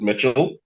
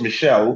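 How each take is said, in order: First: The name is said an English way. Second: The name is said the French way. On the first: This is the speaker's own pronunciation. "but I pronounce it Mitchell" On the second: This is the original pronunciation. "it's actually French, so it's pronounced Michelle"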